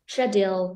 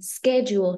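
First: It is said in a British accent. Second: It is said in an American accent. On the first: "in Britain, in the UK, they would say" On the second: "in American, they would say schedule"

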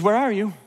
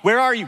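First: It sounds gentle and worried, like missing someone. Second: It sounds stern and accusing, like an interrogation. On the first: The asker misses the person and worries. The speaker calls it right. "He's concerned. He misses you" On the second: The asker has caught someone doing wrong. The speaker calls it wrong. "It's more like a police officer who's caught you"

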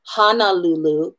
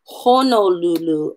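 First: The first vowel is an open AH sound. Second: The first vowel is a rounded O sound. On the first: The speaker calls it wrong. "and not Honolulu, because we've just changed the meaning of the word completely" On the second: The speaker calls it right. "we want to make sure we're saying Honolulu"

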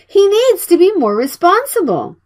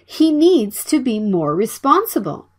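First: It is said at fast speed and loud volume. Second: It is said at normal speed and volume. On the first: "Speak it faster in a loud voice" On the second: "Please listen and repeat after me"

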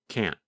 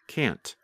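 First: The final T is cut off and barely heard. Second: The final T is clearly released and heard. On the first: "because the tongue and voice stop, there is almost no sound of the letter N" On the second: "simply pronounce the letter T, like can't"

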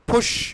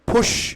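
Both takes have the same delivery.

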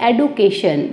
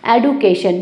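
The two takes are said the same way.

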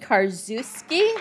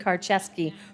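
First: The middle sounds like 'zoo'. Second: The middle sounds like 'chev'. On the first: The speaker calls it wrong. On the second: The speaker calls it right.

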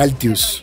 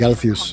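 First: The middle consonant is a plain t sound. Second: The middle consonant is a th sound. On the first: This is how a non-bilingual Spanish speaker would say it. "no va a pronunciar la H porque la H en realidad es silente" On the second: This is the original English pronunciation. "en lugar de"

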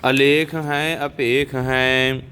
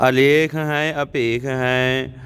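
The two takes are said the same way.

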